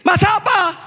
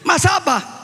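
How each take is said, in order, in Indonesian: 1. Pertanyaan itu diucapkan lebih keras lagi. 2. Pertanyaan itu diucapkan agak keras. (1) "dia lebih keras" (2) "agak keras gitu"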